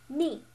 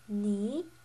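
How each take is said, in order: First: The pitch falls sharply from high to low. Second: The pitch rises from middle to high. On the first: "the fourth tone, uh, the slanted down one" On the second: "the slanted upwards tone"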